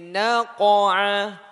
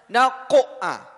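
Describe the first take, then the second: First: The q sound is released with a light bounce. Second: The q sound is pressed with a strong bounce. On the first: The speaker calls it right. "Tapi naqa'a di tengah kata. Qalqalah sughra" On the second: The speaker calls it wrong. "Tidak mungkin kita tekan seperti qalqalah kubra, jangan sampai naqa'a"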